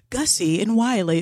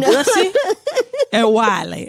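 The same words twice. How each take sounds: First: The names are said in a general accent. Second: The names are said in a Southern accent. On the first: "they didn't say Gussie and Wiley" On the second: "They say Gussie and Wiley"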